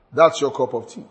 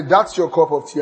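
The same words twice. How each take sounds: First: A touch of brush-off in a flat tone; dismissive. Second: Lightly warm, offering tone; inviting. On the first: Board member brushing off a question, mildly dismissive. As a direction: wave it away lightly. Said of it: "That's dismissive". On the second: Host showing a cup of tea, mildly inviting. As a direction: offer it kindly. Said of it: "That is inviting". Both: Shown as a demonstration.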